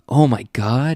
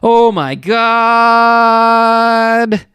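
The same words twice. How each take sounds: First: The phrase is said quietly and softly. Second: The phrase is said loudly and forcefully. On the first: The speaker calls it wrong. "quietly remarks" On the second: The speaker calls it right. "You're supposed to say it"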